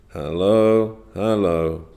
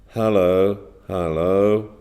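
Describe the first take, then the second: The two takes are said the same way.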